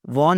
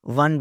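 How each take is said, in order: First: "won" wrongly said as "wawn"; mispronunciation. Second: "won" said just like the number "one"; correct pronunciation. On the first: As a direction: stretch "won" with an open "aw" vowel. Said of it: "won नहीं बोलना". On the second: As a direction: give "won" a short "uh" vowel. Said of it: "won बोलना है". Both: Shown as a demonstration.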